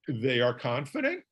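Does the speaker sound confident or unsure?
unsure. It is said in a weak, unsure way. The speaker calls it wrong. "Does that sound very confident?"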